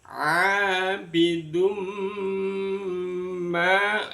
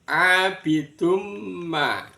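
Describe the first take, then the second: First: The m is merged with a long nasal hum. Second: The m is merged without a nasal hum. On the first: The speaker calls it right. "disertai dengan mendengung" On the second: The speaker calls it wrong. "tidak benar kalau cuma dibunyikan abidum ma"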